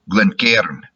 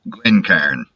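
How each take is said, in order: First: It is said in a Scottish accent. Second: It is said in a Texan accent. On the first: "In Scotland, it would be something like" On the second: "In my Texas hick pronunciation"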